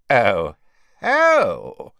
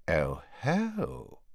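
First: Big, swooping cry of recognition; loud realisation. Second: Quiet, drawn-out dawning recognition; hushed exclamation of discovery; soft realisation. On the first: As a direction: burst out as it fully dawns. Slughorn exclaims again, louder. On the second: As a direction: breathe it out softly as it dawns on you. Slughorn notices Harry, first softer take. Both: A narrator's reading.

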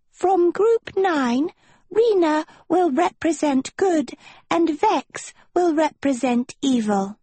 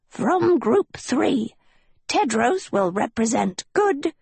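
First: A tiny forest sprite announcing proudly; tiny nymph voice. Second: Put-on high, slow old gnome announcing; a small gnome calling out solemnly. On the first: Acted. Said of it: "A tiny lily nymph in a dress of emerald vines". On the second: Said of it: "Then Yuba stepped forward".

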